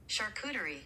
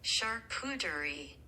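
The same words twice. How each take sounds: First: The word is said at normal speed. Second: The word is said more slowly.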